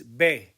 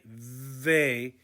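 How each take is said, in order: First: It starts with a b sound. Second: It starts with a v sound. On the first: The speaker calls it right. "it's be" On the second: The speaker calls it wrong. "We don't say ve"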